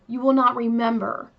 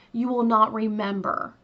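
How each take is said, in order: Both takes have the same delivery.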